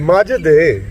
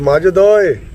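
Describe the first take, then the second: First: The voice falls at the end of the call. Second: The voice rises at the end of the call.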